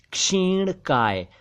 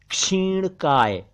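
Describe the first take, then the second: No difference in how they are said.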